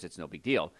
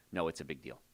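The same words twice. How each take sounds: First: A hint of a dismissive patient, It's no big deal said lightly; mock patient shrugging it off. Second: Quieter, lower, big deal pressed firmly; firm correction. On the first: Doctor mimics a careless patient, light dismissive shrug. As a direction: toss off It's no big deal like a patient who doesn't care. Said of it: "and you think". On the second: Real, not acted. Doctor warns listeners firmly, low and serious.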